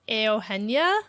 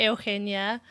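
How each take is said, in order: First: Eugenia said the Spanish way, eh-oo-HEN-ya with a breathy h; Spanish pronunciation. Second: Eugenia said the English way, you-JEE-nee-a; English pronunciation. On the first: Explaining her name to the host, Spanish pronunciation. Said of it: "So normally I explain it, it's". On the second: Explaining her name to the host, English pronunciation. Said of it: "which is similar to Eugenia". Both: Shown as a demonstration.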